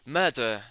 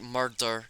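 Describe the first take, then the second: First: The R sound in the word is dropped. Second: The R sound in the word is pronounced. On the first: "he doesn't even pronounce the R" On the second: "I pronounce that with the R as as is in the word"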